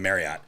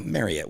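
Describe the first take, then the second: First: It is said the usual way, not like chariot. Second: It is said to rhyme with chariot. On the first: This is how everyone actually says it. "heard anyone say anything other than Marriott" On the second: This is how the script required it. "they said pronounce like chariot"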